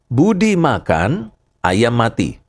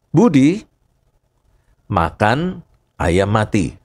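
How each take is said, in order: First: The pause comes right after makan. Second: The pause comes right after Budi. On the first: Budi is eating, and a chicken died elsewhere. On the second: Budi ate a dead chicken.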